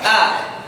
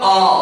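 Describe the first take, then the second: First: The vowel is thin and light. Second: The vowel is thick and dark. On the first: "Fathah tipis" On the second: "Fathah tebal"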